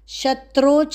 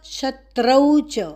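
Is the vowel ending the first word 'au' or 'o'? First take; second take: o; au. First: The first word ends in a plain 'o' vowel. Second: The first word ends in an 'au' diphthong. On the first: The speaker calls it wrong. "शत्रो च नहीं बोलना" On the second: The speaker calls it right. "शत्रौ"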